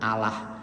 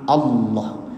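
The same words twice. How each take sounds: First: The L sound is light and thin. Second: The L sound is heavy and thick. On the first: The speaker calls it wrong. "boten Allah" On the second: The speaker calls it right. "tapi Allah"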